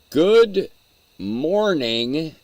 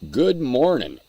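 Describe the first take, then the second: First: The final g sound of morning is pronounced. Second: The final g sound of morning is dropped. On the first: This is the standard, proper form. "good morning is the proper pronunciation" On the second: This is the speaker's casual slang form. "but my slang says good morning"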